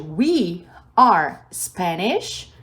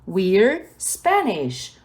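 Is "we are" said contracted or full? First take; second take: full; contracted. First: We and are are said as separate words. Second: We and are merge into one syllable. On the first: "Ao invés de we are Spanish" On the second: "ficou we're Spanish"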